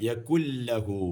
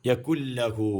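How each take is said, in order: The two takes are said the same way.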